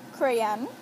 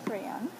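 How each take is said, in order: First: "crayon" as CRAY-ahn, loud with a rising end; "crayon" pronounced kreh-ahn, punched out; Saint Croix "crayon". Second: "crayon" said lightly, less punched; second-take "crayon". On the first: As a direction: say "crayon" in two syllables, Saint Croix style. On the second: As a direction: say "crayon" casually, at an easy volume. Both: Shown as a demonstration. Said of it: "in my accent".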